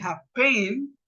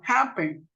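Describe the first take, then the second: First: Happen stressed on the last syllable, ha-PEN; wrong stress demo. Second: Happen stressed on the first syllable, HA-ppen; correct first-syllable stress. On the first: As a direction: demonstrate happen wrongly, accent on the end. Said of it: "el acento no va en el". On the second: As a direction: put the accent at the front of happen. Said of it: "no está acentuada en la última sílaba". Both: Shown as a demonstration.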